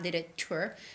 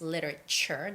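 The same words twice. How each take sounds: First: The sound before the final syllable is t. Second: The sound before the final syllable is ch. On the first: The speaker calls it wrong. "not literature" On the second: The speaker calls it right. "You make it with the C H sound"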